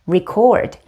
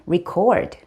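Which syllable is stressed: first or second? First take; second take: second; second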